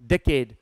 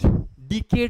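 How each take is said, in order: First: The first vowel is an open 'eh' sound. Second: The first vowel is an 'ee'-like sound. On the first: The speaker calls it right. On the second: The speaker calls it wrong. "डिकेड नहीं होता"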